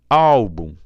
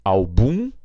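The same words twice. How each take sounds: First: Álbum with ÁL loud and long, falling after; stress on first syllable. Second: Album said al-BUM with a rising BUM; stress on final syllable. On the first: Teacher repeats the contrast, stress on ÁL. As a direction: punch the ÁL of álbum. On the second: Teacher repeats the contrast, stress on BUM. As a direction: lift and lean on the -bum of Album. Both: Shown as a demonstration. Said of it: "olha a diferença".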